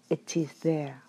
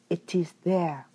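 The two takes are said the same way.

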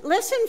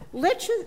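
First: Said in the usual way. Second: Listen, lifted high on a rising call; emphatic listen. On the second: Shown as a demonstration. Reader calling the congregation to attention, emphatic. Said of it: "listen for those".

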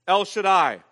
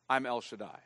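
First: El Shaddai proclaimed loud and full, both words ringing out; booming proclamation. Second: I'm El Shaddai said softer and lower, drawn in close; hushed divine reply. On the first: Preacher declaring to the congregation God's name El Shaddai, loud. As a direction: call out El Shaddai loudly to the whole room. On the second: Preacher voicing God's answer to weary Abraham, quiet and low. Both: Acted.

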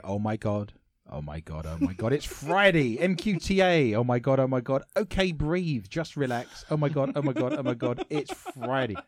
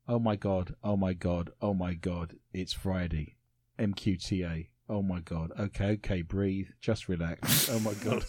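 First: Reading the fan post with mild excitement; excited read. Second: Lower, softer, bored reading over a shoulder; deadpan, as if reading a book mid-honeymoon. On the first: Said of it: "admire his enthusiasm". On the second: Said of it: "going for the bored kind of reading over your shoulder". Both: Shown as a demonstration.

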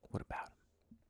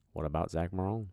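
First: Soft whispered aside; whispered echo. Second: Said in the usual way. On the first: Shown as a demonstration. Echoing his own question about Zach, as a whisper. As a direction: whisper it back like a secret echo.

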